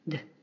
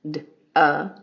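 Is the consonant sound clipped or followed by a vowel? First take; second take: clipped; followed by vowel. First: The consonant is clipped with no vowel after. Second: The consonant is followed by an added vowel. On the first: The speaker calls it right. "clip the sound after the first initial sound" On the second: The speaker calls it wrong. "Those are actually two sounds"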